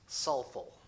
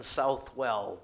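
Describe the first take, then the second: First: It is sounded differently from its spelling. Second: It is sounded just as it is spelled. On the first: "but pronounced Southwell" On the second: "written Southwell"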